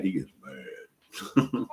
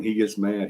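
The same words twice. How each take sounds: First: "mad" stretched very long, low and softer; emphatic drawn-out MAD. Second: Said in the usual way. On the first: Real, not acted. Grandparent warning about the baby's temper, "mad" heavily drawn out. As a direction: drag out the word "mad" slowly for emphasis.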